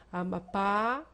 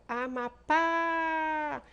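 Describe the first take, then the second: First: Amapá with a louder, rising last PÁ; stress on final PÁ. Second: Amapá very slow, with a high, loud, long final PÁ; exaggerated open A ending Amapá; wide-open stressed PÁ. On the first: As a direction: land firmly on the PÁ of Amapá. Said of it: "indicando que essas sílabas são tônicas". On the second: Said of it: "abre um pouquinho mais a boca". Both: Shown as a demonstration.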